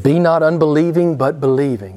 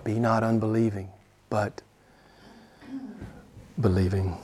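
First: Loud charge, pressing "Be not unbelieving"; forceful command. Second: Low, soft, with pauses before "believing"; hushed repeat. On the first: Retold or imitated. Jesus charges Thomas to believe, forceful. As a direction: command it loudly. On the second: Real, not acted. Preacher presses Thomas's lesson home, hushed. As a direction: lower and soften it, pausing before the last word.

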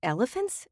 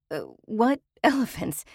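First: Puzzled question. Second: "what" stressed in a flustered half-laughing question; the reporter calls after Dame C, baffled and laughing; sputtering laugh. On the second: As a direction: sputter in confusion, leaning on "what". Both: A narrator's reading.

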